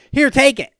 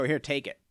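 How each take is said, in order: First: High, loud mock offer; mocking quote. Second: Quiet, offhand retold joke; joking offer. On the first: Man mocks the idea of handing over a car, loud and high. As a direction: throw the offer back in exasperation. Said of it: "You can't just say". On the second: Man jokingly offers his car to a woman, quiet and offhand. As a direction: toss it off lightly as a joke. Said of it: "Jokingly, obviously".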